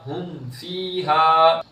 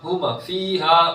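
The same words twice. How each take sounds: First: The m ends cleanly without any bounce. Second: The m ends with an echoing bounce. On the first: The speaker calls it right. "मीम नहीं है तो" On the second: The speaker calls it wrong. "हुम हुम, तो ये गलत है"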